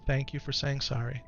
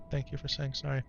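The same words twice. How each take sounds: First: Said in the usual way. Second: Softer, tender repeat to his son; soft thanks. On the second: Real, not acted. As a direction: say it again gently and quietly. Thanking son after an apology.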